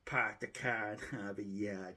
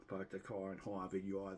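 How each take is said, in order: First: Put-on dropped-r Boston accent, park the car as pahk the cah; lightly put-on Boston accent, r's dropped. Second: R's lightly dropped in a Boston way; a second, milder go at a Boston accent. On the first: YouTuber showing off his Boston accent to viewers, light Boston accent. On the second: Retold or imitated. YouTuber repeating the Boston line for viewers, mild Boston accent. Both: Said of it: "Unless I use my Boston accent".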